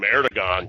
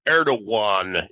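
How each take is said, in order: First: The middle consonant is a hard g. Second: The middle consonant sounds almost like a w. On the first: This is the English-adapted way of saying the name. "it's the it, anglicization of it" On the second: This is how Turks say the name. "that G in there, it's really it's it's almost has a W sound"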